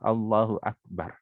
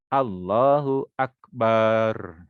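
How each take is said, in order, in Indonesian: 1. Vokal setelah b pendek. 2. Vokal setelah b dipanjangkan.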